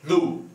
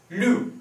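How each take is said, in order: First: Lu mit ü gesprochen, fallend; fourth tone with ü. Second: Lu scharf fallend, mit u; fourth tone. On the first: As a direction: lu mit gerundetem ü. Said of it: "Fourth tone". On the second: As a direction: lu kräftig abfallen lassen. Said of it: "fourth tone". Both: Shown as a demonstration.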